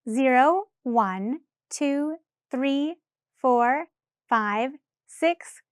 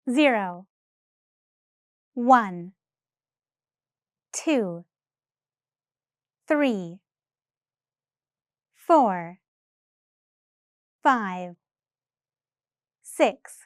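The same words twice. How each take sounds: First: The numbers are counted at a faster pace. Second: The numbers are counted at a slow pace.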